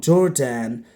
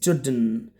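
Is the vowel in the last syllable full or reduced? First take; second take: full; reduced. First: The last syllable has a full 'an' vowel. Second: The last syllable is reduced to just 'n'. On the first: The speaker calls it wrong. "If you pronounce this way, it's wrong" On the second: The speaker calls it right. "the A N, it's n. So the pronounce is Jordan"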